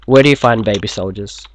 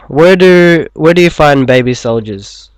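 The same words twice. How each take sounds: First: Said in the usual way. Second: Loud. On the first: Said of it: "I swear this is not a racist joke". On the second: Acted. Loud joke setup, read out.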